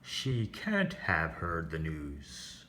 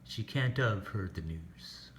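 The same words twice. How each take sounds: First: The word 'have' is said in full. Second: The word 'have' is reduced to a weak form. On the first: The speaker calls it wrong. "have doesn't sound like" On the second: The speaker calls it right. "It sounds like"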